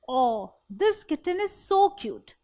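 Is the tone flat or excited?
excited. It is said with excited, loving feeling.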